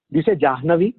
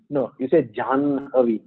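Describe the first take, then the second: First: Questioning Jahnavi with the h first; wrong pronunciation. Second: Janhavi with the n before the ha; right pronunciation. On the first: Teacher testing the class with the wrong Jahnavi. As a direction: ask it doubtfully, Jahnavi, ha before na. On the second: Teacher giving the class the right Janhavi. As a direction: settle it firmly, Janhavi, na then ha. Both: Shown as a demonstration.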